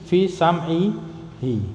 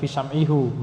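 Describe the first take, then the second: First: The final pronoun is said with an i vowel. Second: The final pronoun is said with a u vowel. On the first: The speaker calls it right. "Jadi i fi sam'i hi" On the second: The speaker calls it wrong. "bukan fi sam'ihu, meskipun boleh tapi jarang dipakai"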